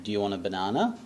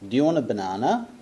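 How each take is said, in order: First: "Do you want a banana?" with the voice climbing up on "banana"; rising question tune. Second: Quick, run-together, "Do you" blurred to "ti"; fast reduced model sentence. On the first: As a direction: let the pitch rise at the end on "banana". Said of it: "And the voice goes up". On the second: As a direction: rattle "Do you want a banana?" off fast and linked like natives. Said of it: "listen and repeat". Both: Shown as a demonstration.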